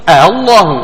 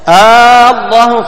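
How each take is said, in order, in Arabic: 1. الهمزة مسهّلة، بين الهمزة والألف. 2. تصبح الهمزة مدًّا طويلًا. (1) "وجه التسهيل" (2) "هذا وجه الإبدال"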